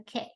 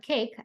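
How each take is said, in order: First: The final k sound is left off. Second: The final k sound is clearly pronounced.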